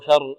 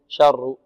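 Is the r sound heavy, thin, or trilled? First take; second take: thin; trilled. First: The r is thin and light. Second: The r is trilled with several taps. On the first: "شر مرقة الراء" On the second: "لا نقول شر، شر تتكرر"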